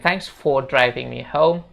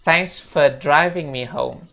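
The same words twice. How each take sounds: First: The word 'for' is said in full. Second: The word 'for' is reduced to 'fe'. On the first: The speaker calls it wrong. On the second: The speaker calls it right. "for itu dibaca fe"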